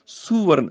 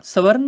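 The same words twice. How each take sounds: First: ਸੁਵਰਨ with a clear u after s; su-var-n, sounding the u; correct pronunciation. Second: ਸਵਰਨ with no u after s; ਸਵਰਨ, first syllable swallowed; wrong pronunciation. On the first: Teacher correcting students, ਸੁਵਰਨ with a clear u. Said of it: "ਸੱਸੇ ਨੂੰ ਔਂਕੜ ਹੈਗੀ ਹੈ". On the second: Teacher showing the wrong way, ਸਵਰਨ with no u vowel. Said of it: "ਸਵਰਨ ਨਹੀਂ ਬੋਲਣਾ". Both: Shown as a demonstration.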